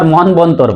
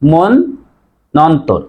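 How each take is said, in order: First: A 'b' sound is heard after the 'n'. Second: The 'n' is doubled with no 'b'. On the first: The speaker calls it wrong. "কেউ আবার মন বন্তর বলে" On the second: The speaker calls it right. "নর উচ্চারণ double হবে"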